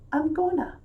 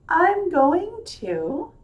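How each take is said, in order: First: 'Going to' is blended into a relaxed 'gonna'. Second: Every word is pronounced clearly and fully.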